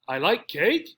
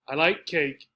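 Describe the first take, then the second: First: The voice rises at the end like a question. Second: It is said calmly with a falling statement tune. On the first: The speaker is unsure or confused about the fact. "Here our voice goes up at the end" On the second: The speaker is simply telling a fact. "Just a sentence. I'm not asking. There's no real degree of excitement"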